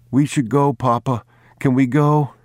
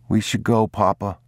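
First: Put-on small boy, much higher and a bit louder, pleading; an anxious boy begging his father to go; boy pleading with Papa to leave the old house; pleading child. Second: Put-on a young boy gently urging his father; child's voice. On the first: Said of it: "boy begs to leave the house". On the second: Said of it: "he said". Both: A narrator's reading.

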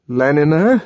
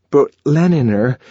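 First: Rising, uneasy question on Leniner; apprehensive. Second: Higher, louder start of an objection; protesting. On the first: John repeating Leniner as she undresses, apprehensive. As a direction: ask Leniner warily, dreading the answer. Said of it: "he repeated apprehensively". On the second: John beginning to protest to Lenina, protesting. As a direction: push back gently. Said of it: "he began protesting". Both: A narrator's reading.

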